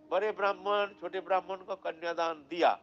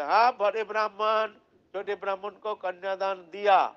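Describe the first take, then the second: First: Said in the usual way. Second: Louder booming declaration, stretched out; loud proclamation. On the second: Acted. The deity's voice declaring to the village council, loud and proclaiming. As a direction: announce it to the whole assembly.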